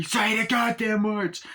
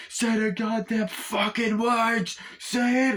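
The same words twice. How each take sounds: First: High, drawn-out order; insistent demand. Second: Very high, drawn-out insistence; exasperated demand. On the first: Gunman pushing wounded partner to repeat words, insistent demand. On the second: Gunman pressing wounded partner harder, exasperated demand. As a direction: push harder, stretching every swear word. Acted demand escalates, with added swearing. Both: Acted.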